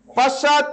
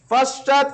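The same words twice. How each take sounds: The two takes are said the same way.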